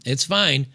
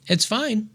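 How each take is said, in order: First: Said in the usual way. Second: Sarcastic. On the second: Real, not acted. Sarcastic repeat after Tate comparison.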